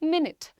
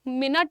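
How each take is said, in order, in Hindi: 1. आखिरी अक्षर 'knit' जैसा सुनाई देता है। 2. आखिरी अक्षर 'knit' जैसा सुनाई नहीं देता। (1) "literally you have to say knit" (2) "मिनट नहीं होता है"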